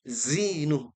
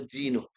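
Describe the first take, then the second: First: The word starts with a plain z sound. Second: The word starts with a j sound. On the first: The speaker calls it right. "Pastikan zai" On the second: The speaker calls it wrong. "atau jim"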